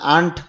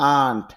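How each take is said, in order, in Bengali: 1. স্বরটি ছোট ও চাপা। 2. স্বরটি টেনে দীর্ঘ করে বলা হয়। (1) "এখানে আন্ট বললে হবে না" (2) "আন্ট টান দিতে হবে"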